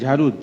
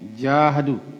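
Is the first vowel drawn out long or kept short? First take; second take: short; long. First: The first vowel is short and unemphasized. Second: The first vowel is drawn out and emphasized. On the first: The speaker calls it wrong. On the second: The speaker calls it right. "Kata alif itu penekanan"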